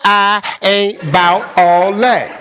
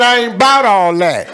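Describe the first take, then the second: First: It is said slowly and deliberately. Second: It is said at normal speed.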